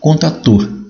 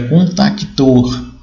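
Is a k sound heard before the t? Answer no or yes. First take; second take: no; yes. First: No k sound comes before the t. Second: A k sound comes before the t. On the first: This is the form used in Brazil. "como no português do Brasil, contator" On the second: This is the form used in Portugal. "da língua portuguesa, onde é contactor"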